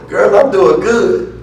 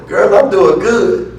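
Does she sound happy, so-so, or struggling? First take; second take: happy; happy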